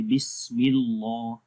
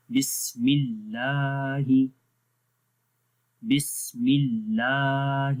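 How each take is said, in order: First: بسم اللہ with a wrongly thick, heavy لا; wrong heavy lam. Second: بسم اللہ slowly with a thin, light لا; slow correct tajweed of بسم اللہ; light lam recitation. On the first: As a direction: demo the mistake, اللہ heavy. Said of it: "اس کو ایسے نہیں پڑھیں گے". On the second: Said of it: "تو پڑھیں گے". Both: Shown as a demonstration.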